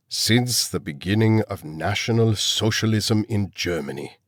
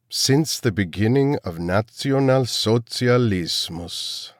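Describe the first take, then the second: First: Said in the usual way. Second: Put-on slow, German accent seeping in on "Nationalsozialismus". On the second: A narrator's reading. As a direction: let the German accent show through on "Nationalsozialismus". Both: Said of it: "letting his German accent seep through".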